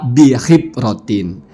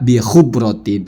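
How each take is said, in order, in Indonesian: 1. Vokal setelah h adalah i. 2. Vokal setelah h adalah u. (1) "bukan ya, dibaca bihibrotin" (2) "Atau baca boleh juga bihubrotin"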